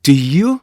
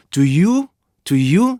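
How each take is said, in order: First: "Do you" as short "dih" into long "ee-yoo"; native linking. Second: "Do you" as plain "doo-yoo"; Korean-style reading. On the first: Teacher showing the target sound, linked stop. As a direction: squeeze "Do", glide long into "you". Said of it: "이렇게 가야 되는데요". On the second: Teacher contrasting the learners' way, unlinked. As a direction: give "Do you" two full vowels, no stop. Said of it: "다르단 말이에요". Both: Shown as a demonstration.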